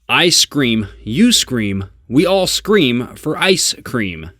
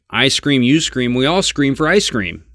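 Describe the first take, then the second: First: Each word is articulated separately and very formally. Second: The words run together in relaxed everyday speech. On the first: "if we're really working on our voiceover abilities and our diction" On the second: "So we want to say it"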